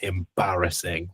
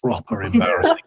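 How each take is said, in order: First: Said in the usual way. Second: Proper embarrassing with a high rising sneer; mock scorn.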